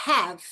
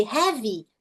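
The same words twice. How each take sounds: First: No vowel after the V in 'have'; 'have' ending on V. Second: 'have' said as 'hevi'; wrong 'have' with final vowel. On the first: Teacher correcting learners, 'have' ending on V. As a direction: stop 'have' cleanly on the V sound. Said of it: "termina no V". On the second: Teacher showing the learner error, 'have' ending in 'ee'. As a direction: add a Brazilian 'ee' after the V in 'have'. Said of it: "em vez de have". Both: Shown as a demonstration.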